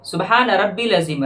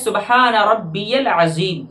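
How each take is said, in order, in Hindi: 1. 'ya' की आवाज़ 'al' से पहले गिराई जाती है। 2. 'ya' की आवाज़ सीधे 'al' में मिल जाती है। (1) "जो कि गलत है" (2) "सही ये है ... या को लाम से मिलाना है"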